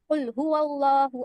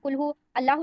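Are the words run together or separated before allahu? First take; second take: run together; separated. First: The words run together as huwallahu. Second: The words are separated before allahu. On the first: The speaker calls it right. "वल्लाहु पढ़ना है" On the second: The speaker calls it wrong. "अल्लाहु नहीं पढ़ना है"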